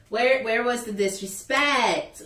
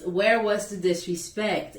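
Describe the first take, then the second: First: Slow, stressed "where, where was the disrespect?" with a falling end; stressed indignant question. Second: Said in the usual way. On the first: Real, not acted. Asking the receptionist again, slow and stressed on where. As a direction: lean on "where" in disbelief. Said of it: "repeats the question, stressing it". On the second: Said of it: "repeats the question".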